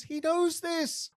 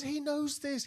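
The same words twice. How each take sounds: First: Slow, higher stress on knows; slow emphatic repeat. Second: Said in the usual way. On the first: Shown as a demonstration. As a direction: lean hard on "knows" slowly.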